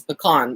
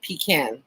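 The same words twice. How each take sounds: First: "pecan" said puh-KAHN, stressed second syllable; pronounced puh-KAHN. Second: "pecan" said PEE-can, stressed first syllable; pronounced PEE-can. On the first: Self-described weird Texan showing her way, pecan as puh-KAHN. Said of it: "the weird Texan that says pecan". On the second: Texan showing what some people say, pecan as PEE-can. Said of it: "but some people say". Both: Shown as a demonstration.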